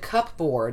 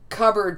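First: The p is heard, as the word is spelled. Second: The p is silent, like "cubberd". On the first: "to cupboard" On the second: "we haven't changed cupboard"

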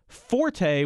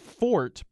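First: Two syllables, with the stress on the first. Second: One syllable, with no vowel after the t. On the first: It names a loud passage in music. "when we're talking about music, and I'm going to put the stress on the first syllable" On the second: It names a person's strength. "it's properly said fort because the word is French"

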